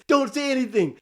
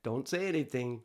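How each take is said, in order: First: Higher and a bit louder, emphatic; urgent inner voice. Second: Softer and lower, calm; quiet inner voice. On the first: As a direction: press the warning urgently. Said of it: "a voice is telling me". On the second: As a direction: murmur the warning. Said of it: "I hear the little voice say". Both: Retold or imitated.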